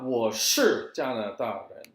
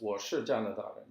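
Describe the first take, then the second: First: The word 是 carries a full falling tone. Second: The word 是 is short and toneless. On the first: The speaker calls it wrong. "It's not ... if you emphasize it, then there's a fourth tone" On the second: The speaker calls it right. "it's ... See how it's kind of short"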